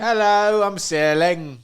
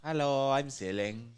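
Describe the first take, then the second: First: A hint of snooty British schoolboy; lightly voiced prep school boy; posh British schoolboy. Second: Put-on slow, hushed posh British boy; lightly voiced snobby prep kid; posh British schoolboy. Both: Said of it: "he'd be from Britain".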